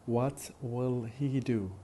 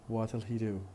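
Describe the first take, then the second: First: The word 'will' is said in full. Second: The word 'will' is shortened onto 'what'. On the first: "That's very careful speech" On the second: "in fast speech it would be"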